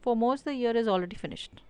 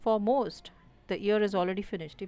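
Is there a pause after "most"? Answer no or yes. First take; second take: no; yes. First: There is no pause after "most". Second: There is a pause after "most".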